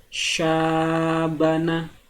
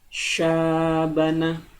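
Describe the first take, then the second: First: The vowel after the first consonant is held long. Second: The same.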